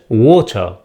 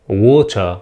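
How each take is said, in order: First: It is said with a British accent. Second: The same.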